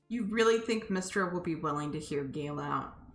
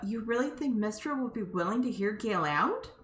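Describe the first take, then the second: First: It is asked in a sarcastic tone. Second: It is asked in a sincere tone.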